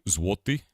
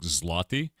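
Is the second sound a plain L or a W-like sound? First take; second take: W-like; plain L. First: The second sound is a W-like glide. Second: The second sound is a plain English L. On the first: The speaker calls it right. "It's actually złoty. ... There's like a wo kind of a sound" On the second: The speaker calls it wrong. "in American it looks like zloty"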